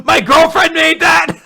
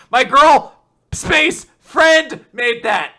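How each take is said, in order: First: Very loud, high-pitched indignant yell; upset mock shout. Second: Put-on loud, high "girl", pause, then "friend"; pointed word break. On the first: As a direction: shout it all in one run, outraged. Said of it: "like, very upset". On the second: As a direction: split "girl" from "friend" with loud, slow insistence. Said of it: "having a hyphen there".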